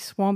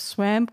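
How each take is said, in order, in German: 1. Das Wort klingt wie Standard-Englisch. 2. Das Wort klingt komisch, wie ein Kentucky-Akzent. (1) "und nicht Swamp" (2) "den Sumpf auf Englisch sehr komisch ausgesprochen ... fast so ein ganz komischer Kentucky-Dialekt"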